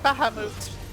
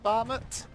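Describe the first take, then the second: First: The name is said with Japanese-style pronunciation. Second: The name is said with anglicized English pronunciation. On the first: "That's how you pronounce it" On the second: "the anglicized pronunciations"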